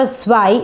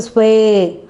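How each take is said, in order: First: "swai" with an I sound at the end, like "sky"; wrong vowel. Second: "sway" ending in a clear A sound, like "day"; correct A sound. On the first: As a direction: say "swai" ending in the I sound, as the mistake to avoid. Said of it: "it's not a swai". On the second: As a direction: say "sway" with the A sound, as the model answer. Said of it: "it's not a swai, it's a sway". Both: Shown as a demonstration.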